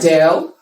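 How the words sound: The name is said with English pronunciation. "this is also an English name"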